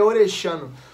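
The double L has the Argentine Spanish sound. "O correto mesmo é Orellano"

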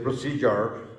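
It is pronounced in an American English way. "American people say procedure"

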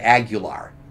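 The name is said with American English pronunciation. The speaker calls it wrong. "A lot of people just Americanize and say Aguilar"

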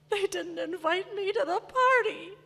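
It sounds whiny and self-pitying.

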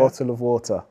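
It is said carefully and clearly.

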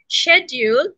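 It is said in a British accent. "in Britain, you pronounce a word like schedule"

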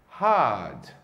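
The R sound is soft and barely heard. "no inglês britânico o R aparece bem lá no fundinho"

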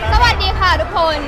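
The voice is full, projected and singer-like. The speaker calls it right. "เสียงมันจะแบบเปล่งมากขึ้นแล้วก็เป็นเสียงร้องมากขึ้น"

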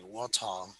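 It is said with a British accent.

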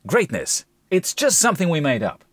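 The reading sounds exaggerated and overly dramatic. "the ad wouldn't have the impact it does if I read it like that"

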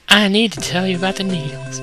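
It is read in a put-on girl voice.

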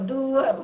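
The word is read with English pronunciation. The speaker calls it right. "coba agak Inggris dikit gitu loh"

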